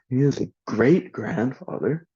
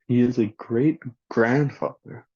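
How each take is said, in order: First: The stress is on great. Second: The stress is on grandfather.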